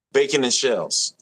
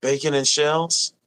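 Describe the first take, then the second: First: Falling, confirming the name; settled statement. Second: Checking the name with a rising question; unsure question. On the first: Streamer confirms the chat dish name, falling and settled. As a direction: state it firmly now. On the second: Streamer double-checks a chat dish name, rising. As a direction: ask it back, unsure if it's right. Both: Shown as a demonstration. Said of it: "did I say that right?".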